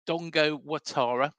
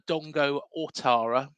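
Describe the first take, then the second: First: The surname begins with a 'wa' sound. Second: The surname begins with an 'o' sound. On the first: "but it's Dongo Watara" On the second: "it's actually spelled"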